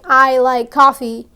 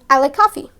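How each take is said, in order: First: Each word is said separately and clearly. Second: The words run together like one word. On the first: "Instead of saying" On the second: "speak one sentence as one big word"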